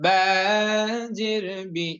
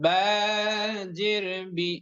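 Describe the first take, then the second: The two takes are said the same way.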